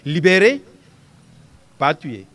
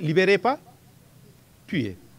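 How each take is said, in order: First: There is a pause after the first word. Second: There is a pause before the last word. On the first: The order is to free the prisoner. "il faudra dire libérer, pas tuer" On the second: The order is to kill the prisoner. "Si j'avais dit libérez pas, tuer. L'ordre donné ici, c'est tuer"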